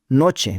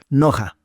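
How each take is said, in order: First: The middle consonant is a 'ch' sound. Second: The middle consonant is a throaty, rasping h. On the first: This is how local people adapted the name. "lo pronunciaron noche" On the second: This is the reading of the original German name. "se lee como Noja"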